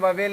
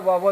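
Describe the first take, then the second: First: The second syllable has a full 'el' vowel. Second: The second syllable has a reduced 'ul' vowel. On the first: The speaker calls it wrong. "उच्चारण वावेल नहीं होता है" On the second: The speaker calls it right. "वावल होता है"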